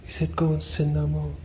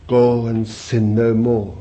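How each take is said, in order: First: Higher, softer incredulous echo; disciples' shocked aside. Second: Slow, firm command, falling at the end; Jesus's command. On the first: Disciples aside repeating what Jesus said, hushed and incredulous. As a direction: repeat the command in hushed, high-pitched disbelief. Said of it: "they went aside and said". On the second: Preacher quotes what the disciples heard Jesus say, slow command. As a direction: say it slowly and firmly, as a command. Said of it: "when they heard him say". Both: Acted.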